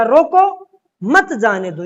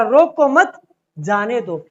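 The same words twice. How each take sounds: First: Loud रोको, a break, then मत जाने दो together; pause after रोको. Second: रोको मत run together, a break, then जाने दो; pause after मत. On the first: Teacher shows the comma meaning stop him, pausing after रोको. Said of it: "अल्प विराम ने पैदा किया है". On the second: Teacher shows the comma meaning let him go, pausing after मत. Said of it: "विराम चिन्ह कहाँ लगाए गए". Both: Shown as a demonstration.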